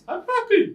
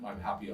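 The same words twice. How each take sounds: First: It is said with a cheerful, expressive voice. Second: It is said in a flat, neutral voice. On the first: The tone of voice carries the emotion. "The way we say it" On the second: Only the words carry the emotion. "Words we say"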